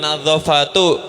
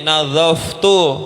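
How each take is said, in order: First: A vowel is sounded between the f and t. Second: No vowel is sounded between the f and t. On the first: The speaker calls it wrong. "Bukan nadzofatu" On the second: The speaker calls it right. "tapi nadzoftu"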